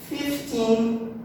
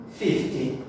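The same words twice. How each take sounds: First: "Fifteen" with a full, sustained second syllable; fif-TEEN, end-stressed. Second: "fifty" low and falling after the first syllable; FIF-ty, front-stressed. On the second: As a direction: lean on the start of "fifty", sink at the end. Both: Shown as a demonstration. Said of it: "a stressed syllable, a mesma coisa".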